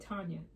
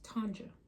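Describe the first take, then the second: First: The middle consonant is a Y sound. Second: The middle consonant is a J sound. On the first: The speaker calls it wrong. "a lot of people say Tanya. That's not it" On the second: The speaker calls it right. "It's with the J"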